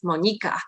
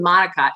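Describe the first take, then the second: First: The name is said with a Polish pronunciation. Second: The name is said with an American pronunciation. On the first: This is the name's original form. "It's Monica" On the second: This is the simplified form used every day. "it's not even Monica"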